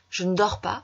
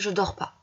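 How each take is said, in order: First: 'Ne' is said weakly, barely heard. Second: 'Ne' is left out entirely. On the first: "le ne va s'affaiblir" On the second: "vous retirez carrément le ne"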